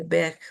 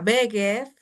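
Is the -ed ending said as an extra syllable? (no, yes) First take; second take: no; yes. First: The ending joins the word with no syllable. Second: The ending is a separate extra syllable. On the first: The speaker calls it right. "Juntamos el sonido G con la D" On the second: The speaker calls it wrong. "vamos a procurar que no suene el ed"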